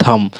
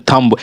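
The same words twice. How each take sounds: First: थम ending on the m, no b; correct thumb, silent b. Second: थंब with the b sounded at the end; wrong thumb with b. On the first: Teacher giving the right form, थम ending on m. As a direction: stop थम at the m, b silent. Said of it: "एम तक हमें उच्चारण करना है". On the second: Teacher showing the common mistake, थंब with b sounded. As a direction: say थंब, b audible, as students wrongly do. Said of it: "थंब ना बोलकर थम बोलना है". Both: Shown as a demonstration.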